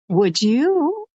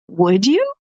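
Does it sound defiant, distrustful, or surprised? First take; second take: distrustful; surprised. First: It sounds suspicious and distrustful. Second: It sounds surprised and amazed.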